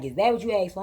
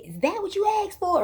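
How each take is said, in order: First: Said in the usual way. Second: Very high disbelieving question; mocking high question; incredulous squeal. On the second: Sister scoffs at hair.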